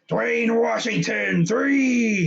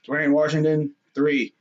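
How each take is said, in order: First: It is announced with hype and excitement. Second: It is announced flatly, without excitement.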